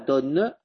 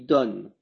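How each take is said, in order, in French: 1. Le e final se prononce comme une voyelle. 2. Le e final est muet. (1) "on dit pas donne" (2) "on dit donne"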